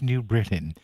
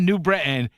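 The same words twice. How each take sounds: First: The t sound in Britain is clearly pronounced. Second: The t sound in Britain is dropped. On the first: The speaker calls it right. "I'm into elocution" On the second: The speaker calls it wrong. "it's not New Britain"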